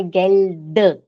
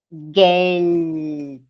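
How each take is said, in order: First: Geld ending in a voiced "duh"; wrong final D. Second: Geld drawn out slowly to a crisp final T; final T sound. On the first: Teacher showing the mistake to avoid, voiced final D. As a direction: say Geld with a vowel after the D. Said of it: "Não é Geld". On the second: Teacher modelling German for students, Geld with final T. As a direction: stretch Geld and release it on T. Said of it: "Som de T no final". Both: Shown as a demonstration.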